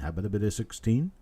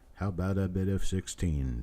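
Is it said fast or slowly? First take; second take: fast; slowly. First: It is said fast, auctioneer style. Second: It is said more slowly.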